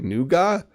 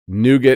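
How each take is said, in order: First: It is said with a British pronunciation. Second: It is said with an American pronunciation. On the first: "the British say nougat?" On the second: "Nougat is the American pronunciation"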